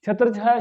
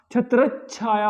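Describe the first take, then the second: First: छत्र छाया with a single chh; छत्र छाया as two separate words; mistaken pronunciation. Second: छत्र छाया joined as "chhatrach-chhaya"; correct pronunciation. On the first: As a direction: say छत्र छाया as "chhatr chhaya", no held consonant. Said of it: "छत्र छाया शब्द नहीं होता". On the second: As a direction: hold a doubled "chchh" in छत्र छाया. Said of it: "छत्र छाया होता है". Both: Shown as a demonstration.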